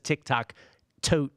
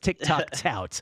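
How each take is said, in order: First: The last word has an 'oat' vowel. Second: The last word has an 'out' vowel. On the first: The speaker calls it wrong. "he says TikTok Tote" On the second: The speaker calls it right. "So it's TikTok Tout"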